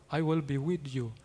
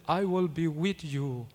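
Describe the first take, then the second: No difference in how they are said.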